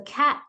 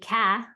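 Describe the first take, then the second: First: The final t sound is clearly pronounced. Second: The final t sound is left off. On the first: The speaker calls it right. "You should really hear that third letter" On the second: The speaker calls it wrong. "cat shouldn't be ka"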